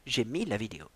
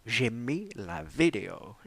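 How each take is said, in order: First: Said in the usual way. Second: Hushed, slow whisper of the same line. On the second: Acted. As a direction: breathe it out slowly like a secret. Repeats line, then whispers it.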